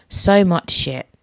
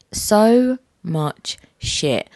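First: Said in the usual way. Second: So much shit, stretched very slow and weary; drawn-out repeat. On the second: Acted. Host repeats how hard life is, very slowly drawn out.

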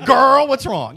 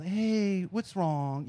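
First: Loud, high, sassy mock agent; hammed-up, unprofessional phone greeting; very bad customer service. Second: Softly imitated helpline concern; soft, considerate phone-agent tone; best customer service. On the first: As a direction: play an over-familiar helpline worker, loudly. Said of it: "Very bad customer service". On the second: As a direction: lightly put on a gentle customer-service voice. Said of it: "I get my best, like, customer service".

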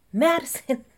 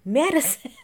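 First: High mock call of Madison!; hammed-up catchphrase yell; mock Danny call. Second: Madison! called higher and louder, laughing; hammed-up shout of Madison! through a laugh; mock catchphrase yell breaking into laughter; imitating Danny Pellegrino. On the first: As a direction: call Madison! in a higher, louder put-on voice. Repeats the call, bigger. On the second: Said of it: "Danny Pellegrino saying it".

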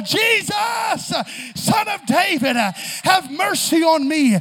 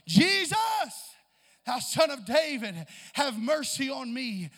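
First: Shouted, slow plea; high shouted desperate plea; crying out louder. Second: Loud pleading call to Jesus; begging cry, loud on the name. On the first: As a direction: cry even louder so Jesus hears. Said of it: "So I'm gonna cry even the more". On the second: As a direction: call out to Jesus across the crowd. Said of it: "he began to cry out". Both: Acted.

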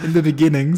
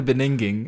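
First: "beginning" said properly with its hard G; laughingly fix it to be-GIN-ning in "beginning"; corrected pronunciation. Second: "beninging" with N in place of G; garbled word. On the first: Correcting their own slip, "beginning" with hard G restored. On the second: Teasing a friend about the slip, "beninging" with swapped sounds. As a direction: jumble beginning into "beninging". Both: Real, not acted. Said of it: "In the beginning, sorry".

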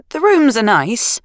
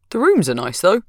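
First: Slow, rising, grudging "rooms"; grudging agreement. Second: Said in the usual way. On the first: Acted. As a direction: concede it reluctantly, drawing it out. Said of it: "Sarah agreed". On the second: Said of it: "replied easily".

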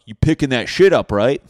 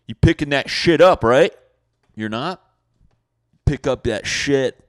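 First: Loud, higher call-out; yelling neighbor. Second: Loud, higher demand; yelling neighbor. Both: Acted. Neighbor to a dog walker, loud demanding call.

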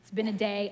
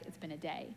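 First: Said in the usual way. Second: Much softer, low, drained "It's been a day"; worn-out sigh. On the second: Retold or imitated. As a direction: let it sag out of you, exhausted. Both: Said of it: "Sometimes you're like".

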